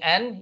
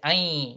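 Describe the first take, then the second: First: The n sound is clearly pronounced. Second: The n sound is merged into the y. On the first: The speaker calls it wrong. "instead of saying an" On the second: The speaker calls it right. "So idgham means you merge it"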